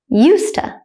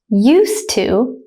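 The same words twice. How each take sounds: First: It is said fast with a reduced schwa. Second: It is said slowly with each word clear. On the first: "at a native speaker speed second" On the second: "I will say it slowly first"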